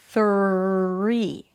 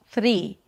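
First: The R is a smooth, held-out sound. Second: The R is a quick tongue flap. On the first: The speaker calls it right. "for a pure R" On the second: The speaker calls it wrong. "You're flapping your tongue against the upper palate instead of pulling it down and in"

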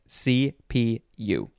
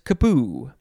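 First: It is said as three separate letters. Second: It is said as one two-syllable word. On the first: "It is officially pronounced CPU" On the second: "I would like to pronounce it kapu"

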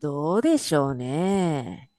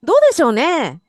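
First: It sounds doubtful, like I don't know about that. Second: It sounds open-minded, like let's see.

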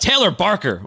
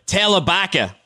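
First: The R sounds are pronounced clearly. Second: The R sounds are dropped, Boston style.

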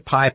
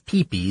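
First: It is said as one syllable, 'pie'. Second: It is said as two syllables, 'pee-pee'. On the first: This is an Americanized way of saying the name. "you could say pie, I guess, if you wanted to, if you want to Americanize this" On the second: This keeps the original French way of saying the name. "I believe that PIE is pee-pee"

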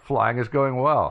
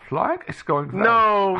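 First: It is said in his own normal voice. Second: It is said with a put-on German accent.

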